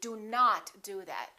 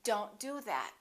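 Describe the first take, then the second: First: Do not is said as two separate words. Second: Do not is contracted into one word. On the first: The speaker is very angry. "If I'm very angry" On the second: An ordinary everyday instruction. "We would say don't do that"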